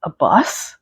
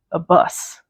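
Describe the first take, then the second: First: "bus" swooping up as a question. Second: Said in the usual way. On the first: A narrator's reading. Reader reacting to the tour bus, "bus" rising in question. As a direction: lift "bus" sharply at the end, puzzled. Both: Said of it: "Question mark?".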